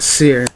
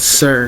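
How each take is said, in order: First: The vowel sounds like the one in 'seer'. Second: The vowel sounds like the one in 'sir'. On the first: The speaker calls it wrong. "It's not Seer" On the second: The speaker calls it right. "It's Sir"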